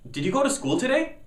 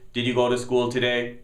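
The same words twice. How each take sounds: First: The voice rises at the end like a question. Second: The voice stays flat with no questioning rise. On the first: It is asked as a question. The speaker calls it right. "it sounds like a question" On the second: It does not sound like a question. The speaker calls it wrong. "You don't say"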